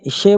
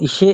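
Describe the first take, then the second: First: The sh sound is made at the palate. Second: The same.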